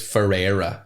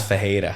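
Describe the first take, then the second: First: The middle consonant sounds like an English r. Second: The middle consonant sounds like a throaty h. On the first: The speaker calls it wrong. "is how you'd spell it" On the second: The speaker calls it right. "But it's Fejera"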